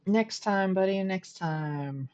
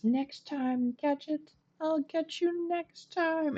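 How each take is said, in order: First: Cartoon villain voice. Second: High, slow cartoon-villain gloat; Doctor Claw. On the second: Streamer hams up the cartoon villain's threat for chat, high and slow. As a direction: draw out the threat like a scheming cartoon baddie. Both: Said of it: "Just pretend I was making, like, Inspector Gadget, the evil guy".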